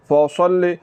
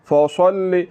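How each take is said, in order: The two takes are said the same way.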